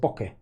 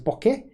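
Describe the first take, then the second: First: The pitch falls at the end. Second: The pitch rises at the end.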